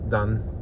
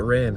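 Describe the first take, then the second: First: It starts with a tapped, d-like r sound. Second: It starts with an English-style r sound. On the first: "The Japanese R is really hard to do" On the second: "I want to pronounce it Ran because it's an English word"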